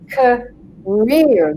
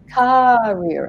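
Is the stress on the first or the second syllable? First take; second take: second; first. First: The stress falls on the second syllable. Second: The stress falls on the first syllable. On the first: The speaker calls it right. "the rear is the long part and the k is the short part" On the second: The speaker calls it wrong. "Another one that typically gets said is career"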